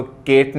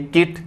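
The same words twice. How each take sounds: First: केट with an 'e' vowel; wrong vowel. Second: किट with short 'i', pitched higher; correct vowel. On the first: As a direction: say केट as 'kayt'. (केट में 'ए' की मात्रा) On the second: (किट में छोटी 'इ', ऊँचे सुर में) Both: Shown as a demonstration. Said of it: "पहली बात तो केट नहीं".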